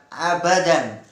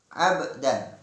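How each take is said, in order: First: An extra a vowel follows the b. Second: The b is closed with no vowel after it. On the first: The speaker calls it wrong. "bukan abadan" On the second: The speaker calls it right. "Abdan, bukan abadan"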